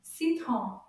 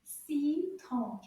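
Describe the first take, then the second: First: "Citron" as one quick word; a bit faster. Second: "Citron" drawn out with its two syllables apart; slow model. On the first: Teacher models "Citron" after slow practice, a bit faster. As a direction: join the syllables of "Citron" briskly. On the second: Teacher shows children the sounds in "Citron", slowly. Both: Shown as a demonstration. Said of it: "say it a little bit faster".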